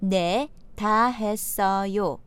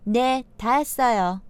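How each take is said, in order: First: It is said slowly. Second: It is said at natural speed.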